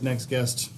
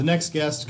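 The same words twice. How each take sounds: First: "next guest" jammed together at speed; alarmingly too fast. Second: Said in the usual way. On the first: Shown as a demonstration. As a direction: rattle off "next guest" as one quick blur. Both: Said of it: "alarmingly too fast".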